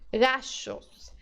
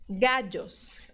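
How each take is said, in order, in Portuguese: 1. O duplo L soa como um SH. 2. O duplo L soa como um DJ. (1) "é do S H do shopping" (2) "Outro som é o D J"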